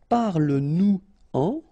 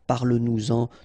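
First: Nous and en are said separately, without liaison. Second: Nous links to en with a z sound. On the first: "I tend to not to make the liaison when I make these little examples" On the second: "should be the way you should pronounce them"

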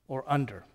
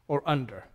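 The two takes are said the same way.

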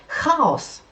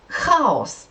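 The two takes are said the same way.

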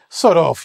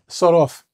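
First: The voice sounds playful and friendly. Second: The voice sounds hostile and rude. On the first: The speaker cannot believe what they heard. "you could say it in a nice way" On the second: The speaker is telling someone to go away. "And that means get lost. And it's a very, we would say, vulgar or not nice way of saying it"

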